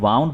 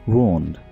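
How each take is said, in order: First: The vowel is pronounced like 'ow'. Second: The vowel is pronounced like 'oo'. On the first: The speaker calls it wrong. "जो कि बिल्कुल गलत है" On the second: The speaker calls it right. "वूंड बोलते हैं"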